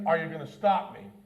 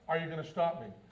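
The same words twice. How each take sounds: First: It sounds like a challenging, rhetorical taunt. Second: It sounds like a sincere, genuine question.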